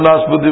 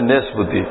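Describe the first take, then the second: First: The first syllable has an 'a' vowel. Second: The first syllable has an 'e' vowel. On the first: This is how the speaker says it. "আমি তো নাশপতি বলি" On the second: This is how the other group says it. "ওদের ভাষায় নেশপতি"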